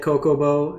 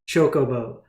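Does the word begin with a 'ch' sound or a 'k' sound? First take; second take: k; ch. First: The word begins with a 'k' sound. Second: The word begins with a 'ch' sound. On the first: The speaker calls it wrong. "I said Kokobo in the last video, and all my comments were ripping me apart" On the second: The speaker calls it right. "My friend sent me a video on how to pronounce it"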